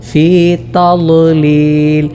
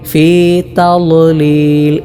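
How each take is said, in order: The two takes are said the same way.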